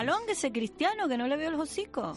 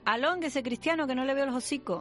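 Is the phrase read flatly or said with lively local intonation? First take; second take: lively; flat. First: It is said with a lively local intonation. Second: It is read out in a plain, flat way. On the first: "yo lo digo con la entonación" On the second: "aquí pone"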